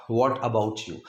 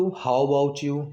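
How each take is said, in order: First: Said in the usual way. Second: Very slow, stretched how about you; slow teaching example; slow alternative. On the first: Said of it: "और तुम". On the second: Shown as a demonstration. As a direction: draw the phrase out slowly. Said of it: "ये भी बहुत common है".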